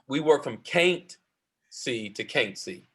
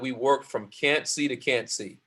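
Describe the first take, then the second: First: It is said in a relaxed dialect pronunciation. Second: It is said in careful standard pronunciation.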